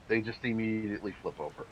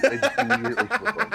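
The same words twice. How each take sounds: First: Said in the usual way. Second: High, loud, laughing. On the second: Acted. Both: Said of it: "repeated in a laughing high voice".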